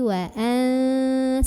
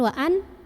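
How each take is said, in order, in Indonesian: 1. Bunyi n tersembunyi, sengau, dan ditahan lama. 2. Bunyi n jelas dan pendek, tidak sengau. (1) "tapi wa an, sambil tahan"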